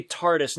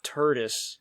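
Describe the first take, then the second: First: "tardis" with a clear AR in the first syllable; intended pronunciation tardis. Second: "turdis" with an "ur" as in turd; slow "turdis", first syllable rhyming with her; mispronounced tardis. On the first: Correcting his slip to co-hosts, "tardis" said with AR. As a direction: say "tardis" with an open "ar". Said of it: "not turdis". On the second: Owning his slip to co-hosts, "turdis" said with UR. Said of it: "I meant to say tardis". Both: Shown as a demonstration.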